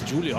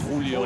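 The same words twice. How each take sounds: First: The name is said with Portuguese sounds. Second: The name is said with Spanish sounds. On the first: The player is Brazilian. "being Brazilian, I suppose it's Julio" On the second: It follows the speaker's own language. "saying Julio, because I'm Spanish"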